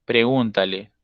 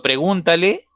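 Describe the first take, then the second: First: "Pregúntale" said lower and falling as a firm order; falling command. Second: "pregúntale" lifted high at the end like a question; rising pregúntale. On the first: Teacher shows the command reading, falling tune. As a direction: drop "Pregúntale" down at the end, like an instruction. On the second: Teacher contrasts the command with a question, rising tune. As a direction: let "pregúntale" climb upward on the last syllable. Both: Shown as a demonstration. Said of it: "ya estamos priorizando ahí la orden".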